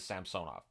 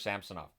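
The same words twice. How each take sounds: First: The name is said the Russian way. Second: The name is said the English way. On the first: This is how the name is said in its home language. "the correct pronunciation in Russian is Samsonov" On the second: This is how the player wants his name said. "He prefers Samsonov"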